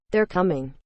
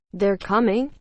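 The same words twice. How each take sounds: First: Said in the usual way. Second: COMING rising into a question; questioning echo. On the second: A narrator's reading. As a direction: echo it back, lifting the end on "coming". Wife echoes it as a question.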